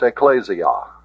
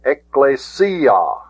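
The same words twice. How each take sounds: First: Ecclesia as ek-KLAY-zee-ah, stress on KLAY; mispronounced ecclesia. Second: Ecclesia as ek-klay-SEE-ah, slowly, SEE stressed; stress on sigma iota. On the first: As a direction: say ecclesia with a z sound and stressed second syllable. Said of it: "It isn't pronounced". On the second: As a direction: draw out Ecclesia with an s and accented SEE. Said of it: "the accent is on the sigma iota". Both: Shown as a demonstration.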